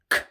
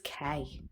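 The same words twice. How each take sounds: First: Only the short consonant sound is made. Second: The full letter name with a vowel is said. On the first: The speaker calls it right. "the pure sound is K" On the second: The speaker calls it wrong. "the letter name is K"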